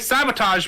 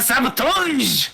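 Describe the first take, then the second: First: It is said in a plain English accent. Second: It is said in a put-on French accent.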